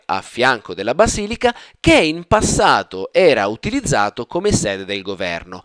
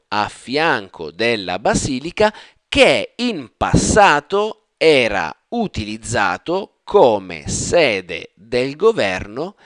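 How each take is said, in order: First: It is read smoothly as one connected phrase. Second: It is read slowly, in separate word-by-word pieces. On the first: "a fluid intonation now" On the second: "when I say word by word"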